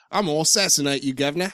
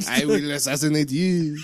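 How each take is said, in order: First: Put-on quick, comic British-accented threat; mock British accent. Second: Put-on comical French-accented threat; mock French accent. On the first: Parodying the game's French characters, comic British accent. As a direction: threaten like a cartoon Cockney. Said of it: "The rest are all Scottish or British". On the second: Joking about French game characters, comical French accent. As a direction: threaten like a cartoon French assassin. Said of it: "glad they don't have French accents".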